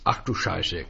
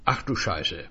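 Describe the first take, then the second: First: Low, grumbling curse; a muttered, irritated Ach du Scheiße; mild growl. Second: Said in the usual way. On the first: Acted. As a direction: grumble it under your breath. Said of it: "knurrte Gericke".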